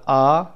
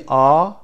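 First: "آ" said as the short vowel, not long; brief "آ" sound, set apart; short vowel demo. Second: "آ" stretched into a longer vowel; drawn-out vowel demo. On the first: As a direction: model a short "آ" for learners. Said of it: "آی کوتاه، بلند نیست". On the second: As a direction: model a long, drawn-out "آ" for learners. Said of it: "آ کشیده تر هست". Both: Shown as a demonstration.

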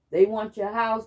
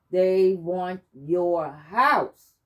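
First: Said in the usual way. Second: Very slow, heavy mock prophecy; imitating the healer. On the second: Healer telling the narrator who wants her home, slow ominous imitation. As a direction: drag each word out like an ominous warning. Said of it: "And she says".

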